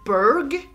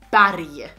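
First: It is said with an English pronunciation. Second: It is said with a Swedish pronunciation. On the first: "you say Berg" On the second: "we say Berg"

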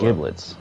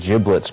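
First: The word begins with a hard g sound. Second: The word begins with a soft j sound. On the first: The speaker calls it wrong. "I pronounced it giblets" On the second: The speaker calls it right. "I didn't know it was pronounced giblets"

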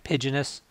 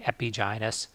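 First: The word is said smoothly as one unit. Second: The two roots are emphasized and said apart. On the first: The speaker calls it right. "when we say this in a more natural way" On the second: The speaker calls it wrong. "I've been emphasizing the two roots by saying epigynous"

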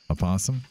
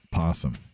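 First: A short weak vowel comes before the P. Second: The word starts directly with the P sound. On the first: "I guess you kind of say it" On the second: "everyone I know just says possum"

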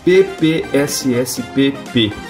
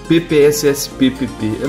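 First: The name is said slowly. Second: The name is said quickly. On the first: The speaker calls it right. "tem que falar devagar mesmo" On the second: The speaker calls it wrong. "é muito difícil falar esse nome rápido"

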